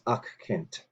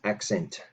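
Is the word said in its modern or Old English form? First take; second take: Old English; modern. First: The word is said in its Old English form. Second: The word is said in its modern English form. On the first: "In Old English, the exact same spelling was used and it was pronounced accent" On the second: "in modern English, we pronounce this as accent"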